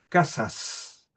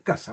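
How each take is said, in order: First: The s sounds are fully and clearly pronounced. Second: The final s sound is not pronounced. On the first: "pronunciarlo de manera esmerada, pronunciar la S" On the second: "no se pronuncia simplemente"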